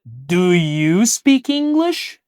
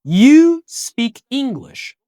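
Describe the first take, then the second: First: "Do you speak English?" said slowly, rising on "English"; slow question rising at the end; question tune. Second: "You speak English." said slowly with a falling end; statement tune. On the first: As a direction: lift the end into a real question. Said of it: "Mas olha a pergunta". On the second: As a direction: model it as a plain statement that settles down. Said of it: "compara ela com a sua forma interrogativa". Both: Shown as a demonstration.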